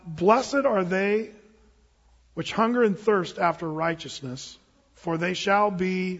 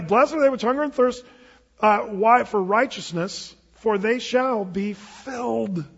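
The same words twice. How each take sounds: First: Each word drawn out, leaving the end open; slow scripture reading. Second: Emphatic recitation. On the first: Preacher prompts the congregation to finish the verse, slow and open. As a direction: read it slowly so they fill in the rest. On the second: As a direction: proclaim the verse with force. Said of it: "Hey, come on, this is a Sermon on the Mount". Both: Shown as a demonstration.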